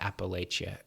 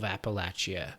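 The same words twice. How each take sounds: First: The name is said the way most people say it. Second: The name is said the way locals say it. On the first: It follows how most people outside the region say it. "I hear everybody call it Appalachia" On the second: It follows how a person from the region says it. "I pronounce it that way because I was in the army with a guy from Appalachia"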